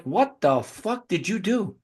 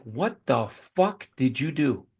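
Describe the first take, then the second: First: Slow, drawn-out rising question; mock incredulous repeat; retold disbelief. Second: Slow, drawn-out, softer disbelief; mock stunned question; retold disbelief. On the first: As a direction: drag it out, rising at the end. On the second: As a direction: stretch it out, stunned. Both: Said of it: "I'm like".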